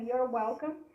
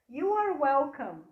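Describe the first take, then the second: First: 'You are' is shortened into one quick syllable. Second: Both words 'you are' are said in full.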